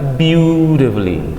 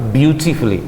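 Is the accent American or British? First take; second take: American; British. First: The middle t sounds soft, like a d. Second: The middle t is a clear t sound. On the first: "Kalau Amerika beautifully, the dari teh jadi the" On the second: "British dia pakai beautifully"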